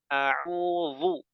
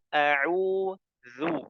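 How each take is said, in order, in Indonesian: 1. Konsonan tengahnya tebal dan emfatik. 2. Konsonan tengahnya bunyi th yang ringan. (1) "seperti dha, salah" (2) "yang betul a'udzu"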